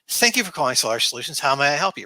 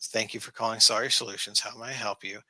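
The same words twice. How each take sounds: First: It sounds happy and cheerful. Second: It sounds bored and reluctant.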